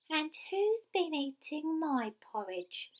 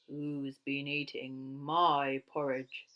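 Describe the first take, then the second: First: It is said in a squeaky little voice. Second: It is said in a big, gruff voice.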